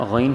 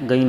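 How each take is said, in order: First: غین with a throaty gh sound; correct ghain. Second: غین begun with a hard g like گین; wrong g sound. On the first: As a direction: start غین with a gargled gh, not a g. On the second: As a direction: say غین with a hard Hindi g to show the mistake. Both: Shown as a demonstration. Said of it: "غین نہیں ہے".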